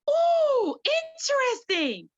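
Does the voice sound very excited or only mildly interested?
very excited. It sounds very excited and enthusiastic. The speaker really likes the animal. "when you see an animal and you really like it"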